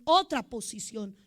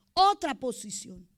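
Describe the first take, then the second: First: Said in the usual way. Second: "otra posición" said slower and heavier; slowed, weighted repeat; slow emphasis. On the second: Real, not acted. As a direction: lean on "otra posición", drawn out.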